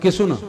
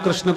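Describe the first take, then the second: First: The word begins with ki and has su. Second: The word begins with a kr cluster. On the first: A regional simplified form of the name. The speaker calls it wrong. "आपके मुरैना क्षेत्र में भी" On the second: This is the pure form of the name. The speaker calls it right. "शुद्ध उच्चारण कृष्ण"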